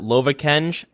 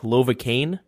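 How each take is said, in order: First: The name ends with a 'j' sound. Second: The name ends with a plain 'n' sound. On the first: This is the habitual way the group says it. The speaker calls it wrong. "we always pronounce it" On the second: This is believed to be the proper pronunciation. The speaker calls it right. "I think it's pronounced"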